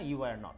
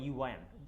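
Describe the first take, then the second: First: Were and not are said as two words. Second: Were and not merge into one syllable.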